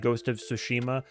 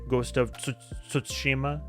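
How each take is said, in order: First: The name is said the American way. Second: The name is said a non-American way. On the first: The speaker calls it wrong. "everybody in America would say" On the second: The speaker calls it right. "but I think it's like"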